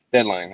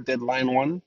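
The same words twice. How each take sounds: First: Deadline said firmly with a falling end; settled name. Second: Deadline One said as a puzzled rising question; trying out Deadline One with an unsure rising end; unsure name guess. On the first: Podcast host settling on the show's name, firm and falling. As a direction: land on Deadline with a confident fall. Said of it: "It's called Deadline". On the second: Podcast host guessing the show's name, unsure rising tone. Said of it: "Whatever you, they call it". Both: Shown as a demonstration.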